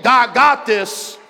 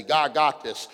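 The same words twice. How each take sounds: First: "God got this" slow, high and loud; loud slow declaration of faith; convinced shout. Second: Said in the usual way. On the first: Shown as a demonstration. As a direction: proclaim it until you believe it. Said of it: "By about your eighth". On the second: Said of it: "you had to say".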